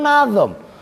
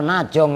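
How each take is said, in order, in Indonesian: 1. Konsonan tengahnya bunyi z. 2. Konsonan tengahnya bunyi j. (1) "sebenarnya kan nazom" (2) "saya takutnya ntar najong lagi"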